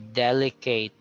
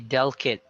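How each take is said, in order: First: The ending sounds like the word 'eight'. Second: The ending sounds like 'it' in 'kit'. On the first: The speaker calls it wrong. "we imitate the sound. So we say delicate" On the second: The speaker calls it right. "it is sounded as kit. So you say delicate"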